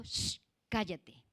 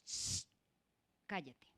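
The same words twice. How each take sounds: First: Said in the usual way. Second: Soft shushing, cut short; mock hushed "shh, cállate"; hushing someone. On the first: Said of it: "Una persona le dijo". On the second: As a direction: shush them quietly. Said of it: "una persona le dijo".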